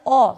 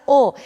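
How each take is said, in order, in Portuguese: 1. O O é pronunciado como vogal aberta. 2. O O é pronunciado como vogal fechada. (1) "nunca a pronúncia será O" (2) "sempre será O ... com a pronúncia fechada"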